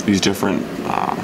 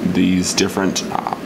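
Both takes have the same delivery.

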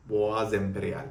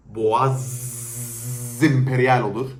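First: Said in the usual way. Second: "Boğaz Imperial" said slowly and loudly, every syllable of "Imperial" stretched out; emphatic slow pronunciation. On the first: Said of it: "Bak Boğaz Imperial dedim". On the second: Shown as a demonstration. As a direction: lean hard on "Boğaz Imperial", dragging it out. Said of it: "Z, Boğaz Emperyal olur".

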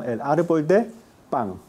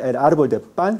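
First: "pan" set apart, ending like pang; velar final n. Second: "pan" with a clean tongue-tip n; alveolar final n. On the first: Teacher repeats coastal form for class, velar "pan". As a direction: pause before "pan", end it in ng. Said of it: "sino el árbol de pan". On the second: Teacher repeats standard form for class, alveolar "pan". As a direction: end "pan" on the gum ridge. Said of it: "no se dice el árbol de pan". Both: Shown as a demonstration.

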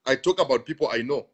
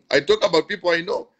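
First: Said in the usual way. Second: Repeats it through a laugh, a bit higher and louder; amused, chuckling as he says "I talk about people I know". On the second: Real, not acted. Pastor on his live stream, laughing at his own point.

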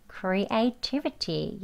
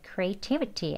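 First: "creativity" very slow and softer; slow soft "creativity" drill; syllable by syllable. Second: Natural speed. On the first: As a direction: say "creativity" one syllable at a time, gently. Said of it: "천천히 음절 하나하나씩". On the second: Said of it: "자연스럽게 또 하시면 돼요". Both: Shown as a demonstration.

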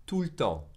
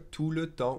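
First: "tout le temps" with le reduced to a bare l; contracted pronunciation. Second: Said in the usual way. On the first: Shown as a demonstration. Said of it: "will be really pronounced tout le temps". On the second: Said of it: "will be really pronounced".

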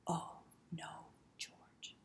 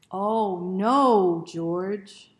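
First: Soft whispered run-through; whispered rehearsal. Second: Big loud dramatic cry; loud exclamation. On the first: Reader rehearsing the refrain with children, whispered. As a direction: hush it like a secret practice. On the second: Reader leading children in the refrain, shouted loudly. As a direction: shout it out for the kids. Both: Shown as a demonstration. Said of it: "remember those words?".

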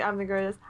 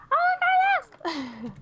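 First: Said in the usual way. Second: High slow announcer voice; voice pack voice. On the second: Retold or imitated. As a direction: stretch it out like a game voice. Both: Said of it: "I was gonna make him say".

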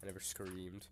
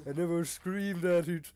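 First: Said in the usual way. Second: Higher, louder put-on voice; exaggerated mock protest; comic denial voice. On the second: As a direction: deny it in a hammed-up character voice. Same line repeated in comic voice.

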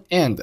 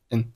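First: Said in the usual way. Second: "n" for and, d dropped and softer; weak form. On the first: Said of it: "and弱读以后". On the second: Shown as a demonstration. Teacher showing learners weak forms, and reduced to "n". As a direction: shrink and to a soft "n". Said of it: "结尾的的不发音".

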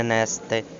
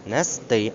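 First: НЕСТИ with the beat moved to НЕС; wrong first-syllable stress. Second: НЕСТИ with the beat on ТИ; correct final stress. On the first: Teacher showing the mistake, stress on first syllable. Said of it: "а не нести". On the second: Teacher giving correct form, stress on ending. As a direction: land on the last syllable of НЕСТИ. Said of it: "наголос на останньому складі". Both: Shown as a demonstration.

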